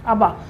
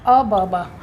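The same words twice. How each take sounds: First: Said in the usual way. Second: "अ ब बा" said as separate beats, अ then ब then बा; "अ ब बा" चबा-चबा कर, तीन हिस्सों में; syllables split apart. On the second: Shown as a demonstration. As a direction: break "अ ब बा" into three slow pieces. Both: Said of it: "याद करने का तरीका".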